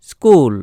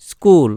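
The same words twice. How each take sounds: The two takes are said the same way.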